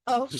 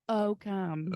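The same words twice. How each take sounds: First: It is said at normal speed. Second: It is said slowly and drawn out.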